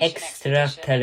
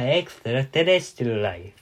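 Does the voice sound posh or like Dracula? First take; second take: posh; Dracula. First: It is said in a posh voice. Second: It is said in a Dracula voice.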